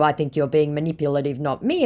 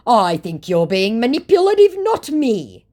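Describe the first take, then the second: First: Said in the usual way. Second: High, loud mock accusation; mock indignation. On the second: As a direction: imitate an affronted scammer, pitched right up. Acts out scammer's indignant reply.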